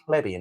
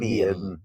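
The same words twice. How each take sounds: First: It is said plainly, with ordinary vowels. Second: It is said poshly, with a stretched vowel. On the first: This is how a commoner says it. The speaker calls it wrong. "not a plebeian" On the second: This is how an aristocrat says it. The speaker calls it right. "they always emphasise their, their vowel sound"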